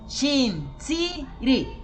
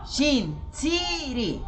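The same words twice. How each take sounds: Both takes have the same delivery.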